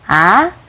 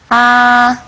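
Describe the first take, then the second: First: The pitch rises like a question. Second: It is held at a high level pitch. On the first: "el segundo tono, que es como un tono de pregunta" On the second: "El primer tono es el más alto"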